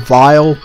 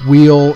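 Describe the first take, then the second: First: The name starts with v and rhymes with mile. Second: The name starts with w and rhymes with feel. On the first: "some people prefer vile" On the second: "some per- people prefer wheel"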